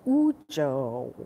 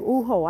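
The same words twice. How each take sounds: First: The J is sounded like an English j. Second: The J is read the Spanish way, like h. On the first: The speaker calls it right. "correct pronunciation" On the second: The speaker calls it wrong. "I was leaving the J. I thought it was Spanish"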